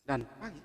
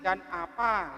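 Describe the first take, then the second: First: The first vowel of 'apa' is dropped. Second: The first vowel of 'apa' is pronounced. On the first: The speaker calls it wrong. "Kok begitu sih? A-nya mana sih?" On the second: The speaker calls it right. "Dan apa gitu"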